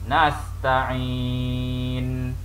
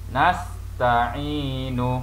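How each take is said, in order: First: The word ends on a silent-vowel n. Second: The final n is followed by a vowel. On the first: The speaker calls it right. "kita kena waqafkan nun yang berbaris ini dengan sukun" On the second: The speaker calls it wrong. "tidak boleh dibaca nasta'inu, adalah menjadi kesalahan"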